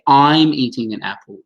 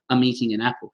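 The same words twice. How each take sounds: First: Each word is said fully and separately. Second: The words run together with reduced vowels. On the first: The speaker calls it wrong. "we don't even say I'm eating an apple. No one would say that" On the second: The speaker calls it right. "We would say I'm eating an apple. This I sort of becomes a schwa"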